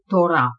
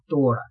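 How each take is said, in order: First: The word carries the Hebrew stress placement. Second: The word carries the Russian stress placement. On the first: "о слове Тора" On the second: "как мы по-русски говорим Тора"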